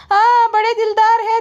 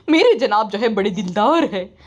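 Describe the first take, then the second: First: High, loud sarcastic voice; high loud mock agreement; mocking brother-in-law. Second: Lightly voiced proud wife. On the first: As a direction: squeal it back sarcastically. Mocking reply to the wife. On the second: Voicing the wife defending husband.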